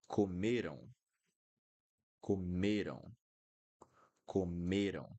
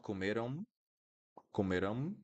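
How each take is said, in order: First: Comeram ending in a nasal "ow", falling; open nasal ending. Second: Comeram rising onto a closed M; wrong M ending. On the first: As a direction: keep the mouth open at the end of comeram. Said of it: "I'm keeping my mouth opened". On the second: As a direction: shut the lips on the last sound of comeram. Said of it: "Not this M sound". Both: Shown as a demonstration.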